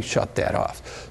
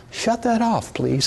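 First: Slow, breathy whisper "Shut that off."; urgent hushed command. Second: Pitched high, a gentle singsong "Shut that off, please"; the mild, polite version he jokes he won't use; high mock-polite request. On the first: Teacher showing the student how he'll really say it, a slow urgent whisper. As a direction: hiss it low and slow so they know it's serious. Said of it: "but I'll be saying". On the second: Teacher demoing a polite warning to the gas-jet student, high and sweet. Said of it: "I probably won't say it in that tone of voice". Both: Shown as a demonstration.

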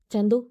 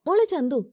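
First: Said in the usual way. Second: A brighter, higher call of "മോളെ Chandu"; happy call. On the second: A narrator's reading. Mother joyfully calling her daughter-like girl, happy call. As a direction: call her name out with joy. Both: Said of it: "സന്തോഷത്തോടെ വിളിച്ചു".

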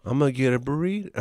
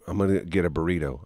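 First: Rising tune at the end of burrito; ending high on burrito. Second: Said in the usual way. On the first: Shown as a demonstration. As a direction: lift the end of the line up like a question. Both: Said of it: "Do it".

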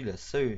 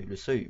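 First: La seuil with the feminine la; slipping into la seuil before a correction; wrong gender article. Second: Le seuil fixed with the masculine le; setting it right as le seuil; corrected article. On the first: A vlogger stumbles on la seuil. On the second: A vlogger corrects himself to le seuil. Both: Real, not acted.

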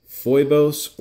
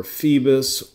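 First: "Phoibos" said FOY-bohs; variant name pronunciation. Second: "Phoebus" said FEE-bus; alternative name pronunciation. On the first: Watch reviewer unsure of the brand name, saying "Phoibos" as FOY-bohs. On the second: Watch reviewer offering another way to say the brand, "Phoebus" as FEE-bus. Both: Shown as a demonstration. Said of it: "I don't know how you wanna pronounce it".

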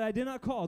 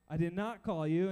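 First: Said in the usual way. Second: A touch of weary irritation; mildly annoyed. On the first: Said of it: "Eli said". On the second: Acted. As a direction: deny it like someone kept from sleep. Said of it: "I don't know if he was annoyed".

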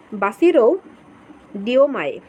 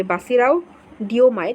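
First: বাসিরো ending in a plain "-ro", then ডিওমায়ে after a pause; tentative pronunciation. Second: বাসিরাও ending in an "-ao" glide, running on into ডিওমায়ে; best-guess pronunciation. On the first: Teacher reading out a president's unfamiliar name, tentative pronunciation of বাসিরো. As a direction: say বাসিরো with a final "o", set apart from ডিওমায়ে. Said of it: "উচ্চারণ যদি একটু ভুল হয়".

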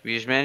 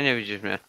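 First: "Widzisz mnie?" asked with a rising end; questioning rise. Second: "Nie widzisz mnie." settled with a falling end, softer; falling statement. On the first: (pytająco "Widzisz mnie?" z intonacją w górę) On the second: (stwierdzenie "Nie widzisz mnie." z opadającą intonacją) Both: Real, not acted.

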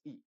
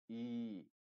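First: "I" said as a short, clipped Spanish i. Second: "I" drawn out slowly as a long ee sound; long English ee. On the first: Teacher contrasting vowels: short Spanish i. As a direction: keep the vowel quick and short. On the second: Teacher contrasting vowels: long held ee. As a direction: stretch the vowel, hold it longer. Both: Shown as a demonstration. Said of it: "la I es más larga que en español".

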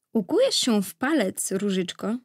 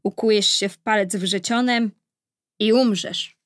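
First: Lightly lifted, kindly fairy voice; gentle. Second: Firm, mildly menacing pronouncement; hissing curse. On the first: Good fairy changing the baby's curse, gentle. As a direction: soften the curse tenderly. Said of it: "odezwała się łagodnie Lilia". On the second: Evil fairy cursing the baby princess, menacing hiss. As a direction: deliver the curse with weight. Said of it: "syknęła". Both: A narrator's reading.

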